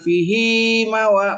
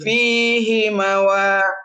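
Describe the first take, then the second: First: The first vowel is short, the second long. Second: The first vowel is long, the second short. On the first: The speaker calls it wrong. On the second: The speaker calls it right.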